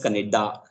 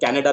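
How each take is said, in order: First: It is said with a Punjabi-influenced pronunciation. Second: It is said with a standard English pronunciation. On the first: The speaker calls it wrong. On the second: The speaker calls it right.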